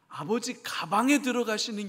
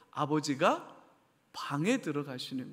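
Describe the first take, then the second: First: The break falls before 'ga', making 'gabang'. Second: The break falls after 'ga', before 'bang'.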